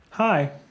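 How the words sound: It is said in a bear's voice.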